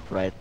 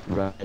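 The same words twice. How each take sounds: The two takes are said the same way.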